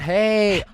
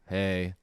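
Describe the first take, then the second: First: It is said lively, with a raised pitch. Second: It is said flat and bored, pitch low.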